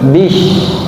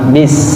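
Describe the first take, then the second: First: The word ends with an sh sound. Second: The word ends with an s sound. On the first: The speaker calls it wrong. "mencampur adukan antara huruf sin dengan huruf shin, seperti bish" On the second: The speaker calls it right. "bibir harus ketarik ke samping"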